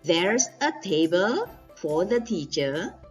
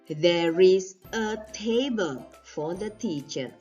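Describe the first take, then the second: First: 'There is' is contracted into one syllable. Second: 'There is' is said as two full words.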